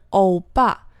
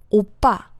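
First: The first vowel glides like Chinese ou. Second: The first vowel is a rounded back o. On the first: The speaker calls it wrong. "最常见的是欧巴，这个是不对的" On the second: The speaker calls it right. "你的嘴型要摆得圆一点，然后呢在口腔的深处去试图发这个音"

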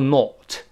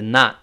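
First: It is said with a British vowel. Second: It is said with an American vowel. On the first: "英国人读出not" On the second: "美国o 变成r 就not"

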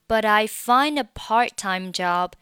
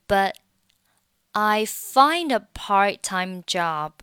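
First: The t of 'but' links into 'I'. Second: The t of 'but' is not pronounced. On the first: "这个是一种方法" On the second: "你还可以选择末尾的t 不发音"

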